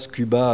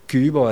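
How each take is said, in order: First: The final vowel is an open 'a' sound. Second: The final vowel is closer to an 'o' sound. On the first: The speaker calls it wrong. "non pas Cuba" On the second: The speaker calls it right. "mais plus Léo"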